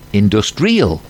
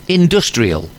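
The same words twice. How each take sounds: First: The stress falls on another syllable. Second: The stress falls on the second syllable. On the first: The speaker calls it wrong. "Can you see where it's wrong?" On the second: The speaker calls it right. "I'm going to ask [name] to repeat the word correctly, and then I will put the stress in the wrong part of the word"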